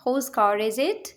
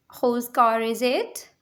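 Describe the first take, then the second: First: Said in the usual way. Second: Slow, clear repeat for learners; slow teacher repeat. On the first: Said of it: "teacher models sentence, then repeats". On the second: Shown as a demonstration. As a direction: spell it out slowly word by word. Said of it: "teacher repeats sentence slowly".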